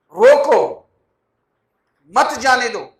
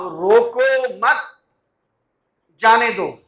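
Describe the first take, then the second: First: Loud "روکو" alone, pause, then "مت، جانے دو" together; pause after "روکو". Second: "روکو مت" as one drawn-out phrase, pause, then "جانے دو"; pause after "مت". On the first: Preacher showing congregation the opposite meaning, pause after "روکو". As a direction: stop hard on "روکو", join "مت" to "جانے دو". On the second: Preacher showing congregation how a pause changes meaning, pause after "مت". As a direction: join "مت" to "روکو", stop, then release "جانے دو". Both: Shown as a demonstration. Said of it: "میں نے دو جگہ مختلف جگہوں پہ وقف کیا".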